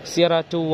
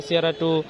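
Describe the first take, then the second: No difference in how they are said.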